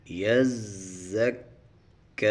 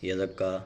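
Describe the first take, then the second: First: یزکا with doubled z and k held hard and slow; یزکا drawn out, shadda letters pressed and stopped; correct tajweed. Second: یزکا said quickly without doubling; یزکا run together, shadda skipped; wrong way. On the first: Teacher shows correct یزکا to students, slow and stressed. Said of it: "ان دونوں کو سختی سے پڑھیں گے اور روک کر پڑھیں گے". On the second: Teacher shows careless یزکا, plain and hurried. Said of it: "ایسے نہیں پڑھیں گے". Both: Shown as a demonstration.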